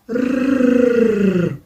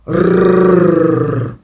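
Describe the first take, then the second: First: The growl is quieter. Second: The growl is loud. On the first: The little bear cub is growling. "але тихіше" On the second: The big mother bear is growling. "вона речить голосно"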